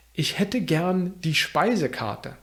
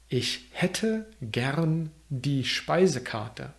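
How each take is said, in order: First: Said in the usual way. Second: Slowed, word-by-word model of Ich hätte gern die Speisekarte; slow careful repeat. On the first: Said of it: "repeated slowly". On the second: Shown as a demonstration. Teacher repeats the menu phrase for learners, slow and careful. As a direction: stretch out hätte and Speisekarte slowly so learners can follow. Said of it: "repeated after first take".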